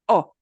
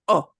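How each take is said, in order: First: A short, tight Spanish o vowel. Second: The same.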